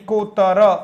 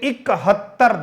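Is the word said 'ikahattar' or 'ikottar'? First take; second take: ikottar; ikahattar. First: The word is said as 'ikottar'. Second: The word is said as 'ikahattar'. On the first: The speaker calls it wrong. "कई बार बोल लेते इकोत्तर, नहीं, गलत हो जाएगा" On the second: The speaker calls it right. "इकहत्तर ध्यान रखना"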